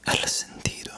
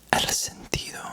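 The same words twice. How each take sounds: The two takes are said the same way.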